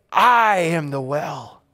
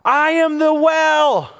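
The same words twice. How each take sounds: First: Slow, low-key words of Jesus. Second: Higher, louder and slow; slow, ringing declaration; proclaiming as Jesus. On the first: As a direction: offer it like a gift, gently. Jesus voiced, offering himself. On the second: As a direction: proclaim each word with weight. Jesus reveals himself, preacher proclaims. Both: Acted.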